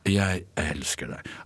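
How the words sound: It is said in a tired, fed-up way. The speaker cannot bear any more. "Altså undertekst. Jeg orker ikke mer"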